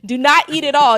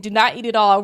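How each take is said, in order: First: NOT punched and louder; stress on not. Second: Said in the usual way. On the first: Real, not acted. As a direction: warn them, hitting the word not.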